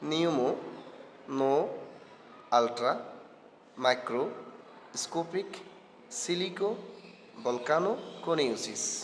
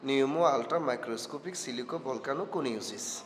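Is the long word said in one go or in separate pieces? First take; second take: separate pieces; one go. First: The word is said in pieces with pauses. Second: The word is said in one continuous go.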